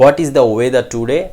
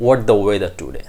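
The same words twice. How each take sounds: First: "What is the" with "is" said in full; full form. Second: "What the" joined, the "is" swallowed; native-style linking. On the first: Teacher reads the full question first, unlinked. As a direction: keep "What is" as two words. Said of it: "Something like that". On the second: Teacher shows how they will speak it, linked. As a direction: shorten "What is the" to "whats-duh". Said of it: "They will speak out". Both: Shown as a demonstration.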